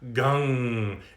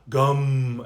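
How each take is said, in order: First: It ends in a nasal ng resonating in the nose. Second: It ends in an m closed at the lips. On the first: The speaker calls it right. "So it really feels in the sinuses. So it's gung. It's up in here" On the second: The speaker calls it wrong. "not gum"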